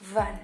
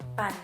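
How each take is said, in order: First: The word starts with a v sound. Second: The word starts with a p sound. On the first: "and like van" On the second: "because there's no v in the Batak Nese, so they will replace it pan"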